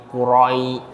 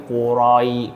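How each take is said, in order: No difference in how they are said.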